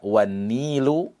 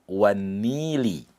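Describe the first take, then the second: First: The word ends with a u vowel. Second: The word ends with an i vowel. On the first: "Tidak boleh dibaca wan-nilu" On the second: "tidak boleh dibaca wan-nili"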